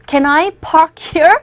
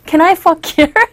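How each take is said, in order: First: Park begins with a P sound. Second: Park begins with an F sound. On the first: The speaker calls it right. "영어로 하자면 Can I park here? 이렇게 해야 되잖아요" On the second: The speaker calls it wrong. "이렇게 발음을 하셔서 경찰에 연행이 됐다"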